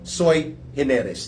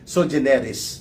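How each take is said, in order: First: The first word is pronounced like 'sui'. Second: The first word is pronounced like 'so'. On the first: Lawyers pronounce it this way. "sabi ng mga abogado, sui generis daw po yan" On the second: Some other people pronounce it this way. "Kung iba mag-pronounce dyan"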